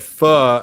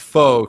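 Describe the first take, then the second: First: The word does not sound like 'faux'. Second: The word sounds like 'faux'. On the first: The speaker calls it right. "you actually said pho" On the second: The speaker calls it wrong. "and not faux"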